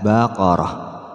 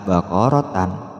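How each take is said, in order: First: The word ends with a soft h sound. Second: The word ends with a tan sound. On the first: The speaker calls it right. "maka dibaca ha" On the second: The speaker calls it wrong. "apalagi dibaca baqaratan, ya, tambah salah"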